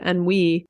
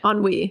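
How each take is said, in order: First: It is said with a Southern American pronunciation. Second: It is said with a French pronunciation. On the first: The speaker calls it wrong. "I was like saying it the Southern way" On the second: The speaker calls it right. "That's the actual French way"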